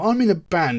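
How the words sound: It sounds confident and full of pride. The speaker is proud of what they do. The speaker calls it right. "just say it with pride"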